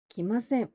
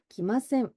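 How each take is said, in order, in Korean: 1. 마지막 비음은 'ng'와 'n' 사이 소리예요. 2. 마지막 비음은 'ng'와 'n' 사이 소리예요.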